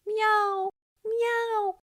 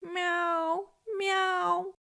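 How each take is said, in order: First: High, loud miaows called out with all his might; calling out. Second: High, drawn-out miaows of a lost kitten; desperate wail. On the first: Kitten calls to his girl, loudly miaowing. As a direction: call for your girl with everything you've got. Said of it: "call out with all his might". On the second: Lost kitten wails for help, desperately miaowing. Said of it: "wailed desperately". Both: A narrator's reading.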